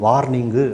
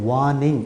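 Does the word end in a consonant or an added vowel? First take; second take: added vowel; consonant. First: The word ends with an added u vowel. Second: The word ends cleanly on the ng sound. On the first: The speaker calls it wrong. "அப்படிங்க கூடாது" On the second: The speaker calls it right. "வார்னிங் அப்படின்னு தான் சொல்லணும்"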